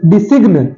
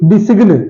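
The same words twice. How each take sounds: The two takes are said the same way.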